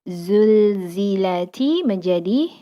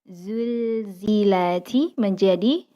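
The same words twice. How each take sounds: Both takes have the same delivery.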